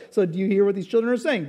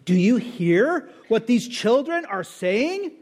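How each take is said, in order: First: Quicker, lighter echo of the question; Jesus replying. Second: Slow, pointed, mildly indignant question. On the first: Jesus echoes the leaders' question back, quick and calm. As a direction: toss the question back calmly. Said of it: "And Jesus replied". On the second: Religious leaders challenge Jesus, mildly indignant and slow. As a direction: drag it out like a mild accusation. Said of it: "So they were indignant". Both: Retold or imitated.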